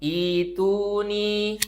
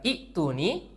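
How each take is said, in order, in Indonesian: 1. Vokal pertama dipanjangkan, tanpa hamzah. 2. Setelah vokal pertama ada hamzah. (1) "hamzah yang kedua kita ubah jadi mad atau tanda panjang" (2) "bukan itu nih"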